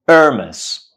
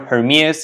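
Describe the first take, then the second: First: The word begins directly with a vowel. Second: The word begins with an h sound. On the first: The speaker calls it right. "It's not ha, it's a" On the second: The speaker calls it wrong. "It's neither Hermes nor Hermes"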